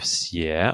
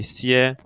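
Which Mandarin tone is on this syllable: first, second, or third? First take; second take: second; first. First: The pitch rises from mid to high. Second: The pitch stays high and level throughout. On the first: It means to carry. "the second tone we have xie" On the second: It means to rest. "The first one we associated with flatness"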